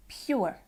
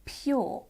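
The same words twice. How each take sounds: First: "pure" as "pyoo-er"; Irish or American sound. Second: "pure" as "pyaw", no r; long vowel in "pure", r left silent; speaker's own accent. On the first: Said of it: "this might sound more like". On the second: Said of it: "In my accent, that sounds like". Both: Shown as a demonstration.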